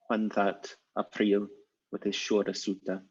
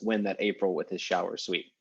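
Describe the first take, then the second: First: The words have older Middle English vowels and endings. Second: The words have ordinary present-day English vowels and endings. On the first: "however Middle English person would say it" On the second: "you just use the modern pronunciation"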